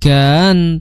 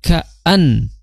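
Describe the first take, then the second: First: The word runs together with no glottal break. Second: The word has a firm glottal break inside. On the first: The speaker calls it wrong. "jangan sampai ka kan kan" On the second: The speaker calls it right. "a itu tegas"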